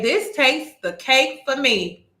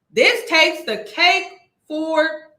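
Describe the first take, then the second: First: Said in the usual way. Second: "This takes the cake" said higher and louder, slowly; incredulous emphasis. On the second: Real, not acted. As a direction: push the disbelief on the repeat.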